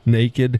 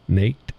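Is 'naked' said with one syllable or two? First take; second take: two; one. First: It is said with two syllables, like nay-kid. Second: It is said with one syllable, rhyming with baked. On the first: The speaker calls it right. "It's naked" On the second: The speaker calls it wrong. "not naked"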